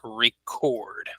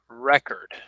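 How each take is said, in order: First: The stress is on the second syllable. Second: The stress is on the first syllable. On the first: It names an action of capturing something. "as a verb, it is record" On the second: It names a thing, such as a document. "if we use it as a noun, we pronounce it as record"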